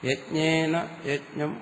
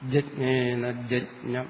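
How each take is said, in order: First: The words begin with a 'y' sound. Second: The words begin with a 'j' sound. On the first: The speaker calls it right. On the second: The speaker calls it wrong.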